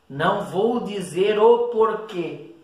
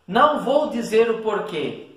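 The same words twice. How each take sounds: First: "o porquê" slow, leaning on "o"; stress on o porquê. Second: Said in the usual way. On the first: Shown as a demonstration. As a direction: drag out "o porquê" to show the noun. (ênfase lenta em "o porquê")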